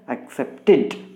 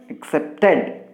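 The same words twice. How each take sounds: First: The ending forms its own extra syllable. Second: The ending adds no extra syllable. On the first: The speaker calls it right. "we must pronounce it as" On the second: The speaker calls it wrong. "We should not pronounce it as"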